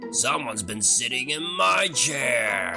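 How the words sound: It is said in a deep, roaring voice.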